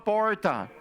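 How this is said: It is said in an interior São Paulo accent.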